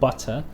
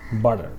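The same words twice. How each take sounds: First: The middle consonant is a clear T sound. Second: The middle consonant sounds like a D. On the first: "in British English they pronounce it butter" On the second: "in American English this is pronounced butter, ... T sounds like a D"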